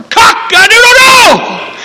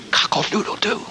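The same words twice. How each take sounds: First: Very high, drawn-out shouted cock-a-doodle-doo; full-blast rooster crow. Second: Small, half-voiced cock-a-doodle-doo; little bitty rooster crow. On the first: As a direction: crow loud enough to wake the sleepers. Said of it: "like a rooster that I can remember". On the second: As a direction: crow feebly, holding the volume back. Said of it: "little bitty". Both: Shown as a demonstration.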